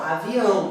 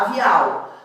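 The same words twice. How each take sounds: First: Avião with the final vowel clearly nasal, ending in an n sound. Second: Avial said with a plain L ending instead of nasal; wrong pronunciation. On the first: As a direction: say avião nasalized at the end, not avial. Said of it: "indicar a nasalização". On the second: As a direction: say avial as the mistaken non-nasal form. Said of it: "pra não falar avial". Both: Shown as a demonstration.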